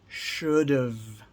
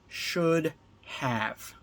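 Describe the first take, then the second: First: The second word shrinks to a short 've' sound. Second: Both words are said fully and separately.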